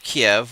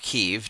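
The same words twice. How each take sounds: First: The city name has the Russian pronunciation. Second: The city name has the Ukrainian pronunciation. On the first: "depending on if you're speaking in Russian" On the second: "or Ukrainian"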